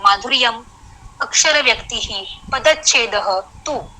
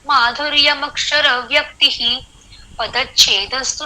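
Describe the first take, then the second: First: Each word is said separately with breaks between. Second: The words run together, pausing only by meter. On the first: "पदच्छेद किया, शब्दों को अलग अलग किया" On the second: "जैसे मैं अभी ये श्लोक आपको पढ़ के दिखाती हूँ"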